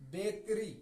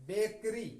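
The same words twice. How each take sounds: The two takes are said the same way.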